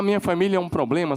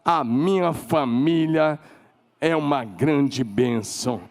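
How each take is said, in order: First: Said in the usual way. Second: Slow, deliberate declaration of blessing. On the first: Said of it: "Em vez de você falar". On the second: Shown as a demonstration. Pastor modelling the right words for the family, slow and sincere. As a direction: lay each word down slowly. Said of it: "sabe o que você tem que falar?".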